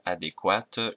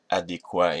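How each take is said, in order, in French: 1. Le mot se termine par un t prononcé. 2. Le mot se termine sans son t final. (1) "et pas adéquate" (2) "on dit adéquat"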